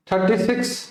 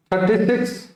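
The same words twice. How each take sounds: The two takes are said the same way.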